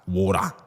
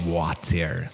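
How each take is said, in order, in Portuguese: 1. A palavra é dita com sotaque australiano. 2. A palavra é dita com sotaque não australiano. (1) "aqui na Austrália eles falam water" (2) "Eles não falam water"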